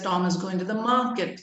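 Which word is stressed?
market. The word market is said louder and longer. "Suppose the word market has to be stressed"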